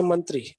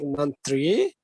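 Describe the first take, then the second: First: Said in the usual way. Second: "mantri" with the last syllable stretched and rising; wrongly stressed mantri. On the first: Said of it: "there is no stress or word stress". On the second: Shown as a demonstration. Teacher showing students what not to say, "mantri" with stressed, rising ending. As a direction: lean on the "tri" of "mantri", pitch climbing. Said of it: "We are not going to say like".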